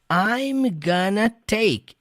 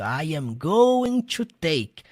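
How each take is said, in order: First: Going to is reduced to gonna. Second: Every word of going to is said fully. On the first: "ele pronuncia gonna" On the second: "você pode pronunciar do seu jeito"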